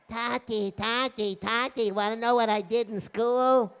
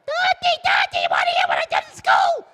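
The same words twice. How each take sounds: First: Put-on lightly pitched-up child voice; child calling father. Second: Put-on very high, loud child's shriek; calling out louder. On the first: Child calling to father after school, sing-out calling. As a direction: call out like an eager kid. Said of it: "his kinderlach are calling". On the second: Child trying again to reach father, shrill shouting. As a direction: yell like a kid demanding attention. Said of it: "the kid calls out louder".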